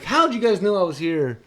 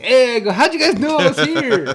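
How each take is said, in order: First: Higher and louder, but milder than the first take; re-tell the cheerful entrance line; retold happy greeting. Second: High, loud happy yell; excited shout. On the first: Uncle retelling his entrance to the family, mildly excited. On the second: Retold or imitated. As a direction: burst in shouting with joy. Bursting through the door happily.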